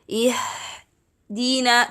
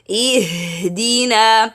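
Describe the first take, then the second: First: The h is airy, with much breath, little voice. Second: The h is fuller, with more voice, less breath. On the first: The speaker calls it wrong. "when I read it as ihdina, ihdina, this is the mistake" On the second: The speaker calls it right. "give it lots of sound ... let the two vocal cords vibrate ... like this"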